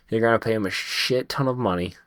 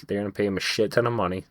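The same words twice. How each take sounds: First: Said in the usual way. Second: Rattled off fast, ton stressed; quick insistent restatement with "ton" hit hard; fast emphatic repeat. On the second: Shown as a demonstration.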